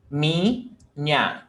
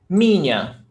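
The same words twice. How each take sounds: First: "Minha" drawn out as mi, then nha; split into syllables. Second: Said in the usual way. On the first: Shown as a demonstration. Teacher showing syllable separation, "Minha" split as mi-nha. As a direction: say "Minha" slowly in two parts, mi and nha. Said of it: "One syllable mi, another syllable nha". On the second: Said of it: "One syllable mi".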